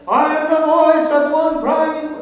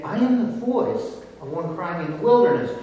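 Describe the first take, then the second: First: Mock wailing cry, much higher and louder; wrong reading, cried out. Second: Said in the usual way. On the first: Shown as a demonstration. Preacher mocking a misreading with a high, loud cry. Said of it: "Because he's not saying". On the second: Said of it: "He's saying".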